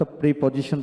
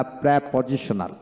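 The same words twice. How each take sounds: First: "প্রিপজিশন" starting with "pri"; "প্রিপজিশন" as PRI-po-ji-shon, the everyday way; common "pri" pronunciation. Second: "প্রিপজিশনাল" starting with an open "prae"; "প্রিপজিশনাল" with an a as in cat up front; corrected "prae" pronunciation. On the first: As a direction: say "প্রিপজিশন" with a long i up front, pree-po-ji-shon. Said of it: "এখানে আমরা সাধারণত প্রিপজিশন বলি না". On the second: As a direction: say "প্রিপজিশনাল" as prae-po-ji-sho-nal. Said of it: "সাধারণত প্রিপজিশন বলি না". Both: Shown as a demonstration.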